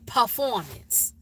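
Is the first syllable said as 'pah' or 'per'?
pah. The first syllable sounds like 'pah'. "We say P A H, performance"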